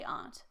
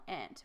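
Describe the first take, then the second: First: The word is said with a non-American pronunciation. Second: The word is said with an American pronunciation. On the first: "We say aunt" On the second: "I usually thought maybe more of the American"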